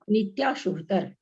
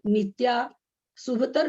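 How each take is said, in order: First: It is said as one unbroken word. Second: There is a break after nitya. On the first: The intended meaning is kept. The speaker calls it right. "इसलिए इसको एक साथ बोलना है" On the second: The meaning becomes wrong. The speaker calls it wrong. "अगर हम इसको तोड़ के बोलें"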